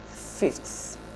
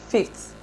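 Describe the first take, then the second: First: The final sound is a fricative, like th. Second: The final sound is a stop, like t. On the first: "rather than fifth" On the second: "is pronounced as fifth"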